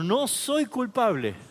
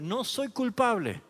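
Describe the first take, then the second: First: It is said firmly, with strong conviction. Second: It is said plainly, without special force.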